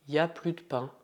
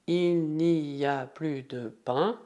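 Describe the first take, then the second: First: "y a plus de pain" with no "il", run together; dropped il. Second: "Il n'y a plus de pain" slow with "il" sounded; full form. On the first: Teacher shows the spoken form without il. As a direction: start straight on "y a plus de pain". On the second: Teacher gives the full form before the short one. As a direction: say "Il n'y a plus de pain" slowly with every word. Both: Shown as a demonstration. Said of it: "sem o il".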